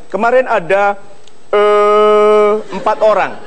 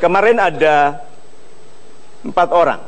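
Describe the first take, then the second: First: The hesitation is filled with an 'eh' sound. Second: The hesitation is a silent pause. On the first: The speaker seems to be thinking aloud. The speaker calls it wrong. "E e e tanda Anda berpikir dikeraskan" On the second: The speaker seems elegant and authoritative. The speaker calls it right. "kalau Anda mau anggun, diam"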